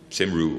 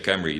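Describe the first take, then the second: First: The name is said in a non-Welsh way. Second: The name is said in the Welsh way. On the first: The speaker calls it wrong. "they don't say Cymru" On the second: The speaker calls it right. "the Welsh say Camry"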